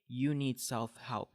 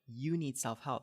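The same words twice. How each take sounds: First: The voice is flat, low and sleepy. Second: The voice is lively, lifted and energetic. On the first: The speaker is not interested in the topic. The speaker calls it wrong. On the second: The speaker is interested in the topic. The speaker calls it right.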